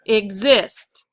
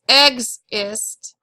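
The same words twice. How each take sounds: First: The stress is on the second syllable. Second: The stress is on the first syllable. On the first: The speaker calls it right. "E X is usually not accented, so the I S T is exist" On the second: The speaker calls it wrong. "It's not exist"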